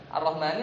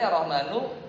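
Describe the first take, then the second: First: The word ends with an i vowel. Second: The word ends with a u vowel. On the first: The speaker calls it right. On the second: The speaker calls it wrong.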